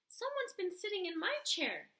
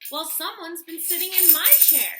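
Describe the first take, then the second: First: It is said in a tiny, small growl. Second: It is said in a medium-sized growl.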